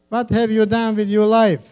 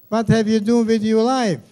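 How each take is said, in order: No difference in how they are said.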